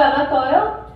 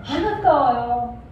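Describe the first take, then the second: First: "안 아까워요?" asked with a rising end; questioning rise. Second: "안 아까워요" stretched slowly as a settled answer; slow, emphatic statement of "안 아까워요"; drawn-out answer. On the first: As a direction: put "안 아까워요?" to the crowd as a question. Asks congregation, then answers it. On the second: Answers own question to congregation. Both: Shown as a demonstration.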